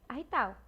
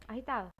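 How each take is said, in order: The two takes are said the same way.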